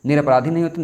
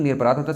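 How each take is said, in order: First: "निरपराधी" ending in a long ee; wrong word form. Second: "निरपराध" ending on dh, no final ee; correct word form. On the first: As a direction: say "निरपराधी" with the final -dhee sounded. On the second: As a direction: say "निरपराध" stopping on the consonant. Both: Shown as a demonstration.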